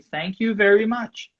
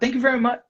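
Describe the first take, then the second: First: It is unhurried, with every word clear. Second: It is rushed, with the ending swallowed. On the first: The speaker calls it right. "you don't have to say it fast" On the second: The speaker calls it wrong. "you speaking too fast"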